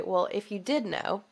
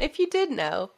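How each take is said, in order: First: Hypothetical question with weight on "did"; stress on did. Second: "you" lifted high and pressed in "If you did know"; stress on you. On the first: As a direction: lean on "did" in "if you did know". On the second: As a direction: push the word "you", higher and rising. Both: Shown as a demonstration. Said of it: "let's just pretend".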